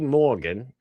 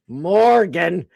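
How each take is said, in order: First: The R sound after the vowel is dropped. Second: The R sound after the vowel is pronounced. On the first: The speaker calls it wrong. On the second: The speaker calls it right.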